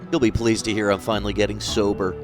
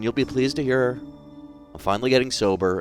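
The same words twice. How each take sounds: First: It is said in a sarcastic tone. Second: It is said in a sincere tone.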